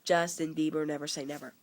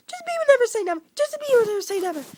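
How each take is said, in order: First: Said in the usual way. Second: Title squealed very high and loud; hammed-up fan scream of the title; mock fangirl shriek. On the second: Shown as a demonstration. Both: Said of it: "that was terrible".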